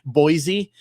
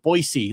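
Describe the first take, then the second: First: The middle consonant is a soft Z sound. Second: The middle consonant is a hard S sound. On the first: The speaker calls it wrong. "how we all say Boise" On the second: The speaker calls it right. "like a like a hard fucking S"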